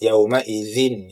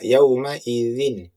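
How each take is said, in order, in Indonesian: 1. Napas terdengar keluar saat mengucapkannya. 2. Tidak ada napas tambahan yang keluar saat mengucapkannya. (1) "jangan sampai mengeluarkan uh, nafas" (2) "yang benar adalah"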